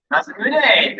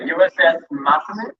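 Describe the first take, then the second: First: "Masamune" said firmly, falling, as corrected; corrected pronunciation. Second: "Masamune" tried with a questioning rise; unsure pronunciation. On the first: Emcee repeating the name she was corrected on, firm falling. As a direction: repeat "Masamune" with confidence after help. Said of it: "thank you". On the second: Emcee unsure of a ship name, tentative rising try. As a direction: test "Masamune" hesitantly, ending up. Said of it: "I'm gonna butcher this". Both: Shown as a demonstration.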